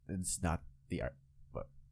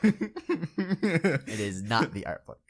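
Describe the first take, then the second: First: It is said less confidently. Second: It is said more confidently.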